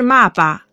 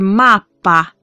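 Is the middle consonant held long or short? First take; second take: short; long. First: The middle consonant is short. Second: The middle consonant is lengthened. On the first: The speaker calls it wrong. "不是骂巴" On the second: The speaker calls it right. "需要延长一点"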